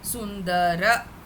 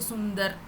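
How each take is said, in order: First: The word ends with a full final vowel. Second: The word ends on a consonant, final vowel dropped. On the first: This is the full pronunciation for chanting. The speaker calls it right. "full pronunciation should come" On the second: This is how it is said in Hindi. The speaker calls it wrong. "in Hindi we say Sundar, but here you cannot say Sundar"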